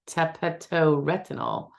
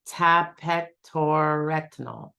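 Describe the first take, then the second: First: The word is said at normal speed. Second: The word is said slowly and deliberately.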